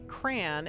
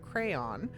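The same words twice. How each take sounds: First: It is said in the speaker's West Coast way. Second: It is said in the usual standard way. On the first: The speaker calls it wrong. "because I grew up on the West Coast that there that I say crayon" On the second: The speaker calls it right. "instead of"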